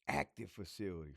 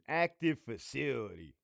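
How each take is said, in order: First: It is read in an imitated voice. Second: It is read in his natural voice.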